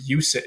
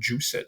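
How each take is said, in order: First: It begins with a Y sound. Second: It begins with a J sound. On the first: "it would be use it in um, sort of classical pronunciation" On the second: "it looks like juice it"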